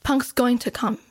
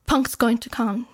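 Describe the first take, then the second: No difference in how they are said.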